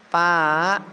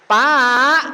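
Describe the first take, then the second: First: The call is soft and gentle. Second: The call is louder and raised.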